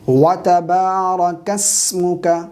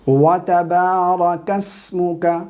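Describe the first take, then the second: The two takes are said the same way.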